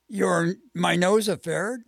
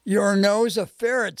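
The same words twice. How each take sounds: First: "my nose a ferret" echoed with a rising end; puzzled question. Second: Said in the usual way. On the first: A narrator's reading.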